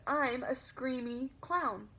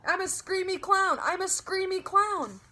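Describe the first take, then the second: First: Slow, softer polite explaining. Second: Much higher, louder gleeful yell; screaming. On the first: Girl explaining to mother politely. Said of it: "very polite". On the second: Girl running around grandma, gleeful shout. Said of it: "I kept on screaming". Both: Acted.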